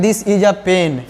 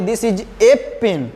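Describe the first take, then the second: First: A said as a short "uh", slowly; normal article a. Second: A stressed as a full "ay", slowly; emphasis on A. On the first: Teacher models the usual spoken article for students, short "uh" pronunciation. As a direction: say a as unstressed "uh" before pen. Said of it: "ए का उच्चारण आ बोलिएगा". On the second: Teacher shows students how to emphasise a thing, stressed "ay". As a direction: hit a as "ay" before pen. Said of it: "किसी चीज़ पर जोर देना". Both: Shown as a demonstration.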